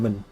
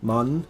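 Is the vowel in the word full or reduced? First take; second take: reduced; full. First: The word is said unstressed with a reduced vowel. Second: The word is said stressed with a full vowel. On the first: It is appended to the end of another word. "it would become unstressed ... it would just become min" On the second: It stands alone as a word. "you have the word man"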